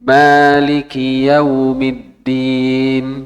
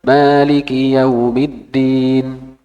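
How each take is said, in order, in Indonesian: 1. Dibacanya dengan tempo sedang dan terukur. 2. Dibacanya dengan tempo sedikit lebih cepat. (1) "Itu kalau sedang" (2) "Kalau agak cepat"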